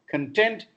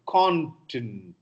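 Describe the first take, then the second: First: "content" as con-TENT; short weak first syllable, stressed TENT in "content"; second-syllable stress. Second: "content" as CON-tent; first-syllable stress. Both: Shown as a demonstration. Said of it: "content is different from content".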